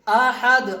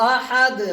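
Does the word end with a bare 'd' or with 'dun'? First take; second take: bare d; bare d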